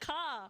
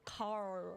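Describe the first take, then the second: First: The word ends without an R sound. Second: The word ends with an audible R sound. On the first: "I can't use the R. A car is just a car" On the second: "I can try like car"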